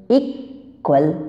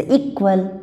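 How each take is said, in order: First: equal slowly broken after इक; two separate syllables in equal, falling at the end; split to show stress. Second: Said in the usual way. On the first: Shown as a demonstration. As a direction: set इक apart with a long pause in equal. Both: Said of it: "stress पड़ता है".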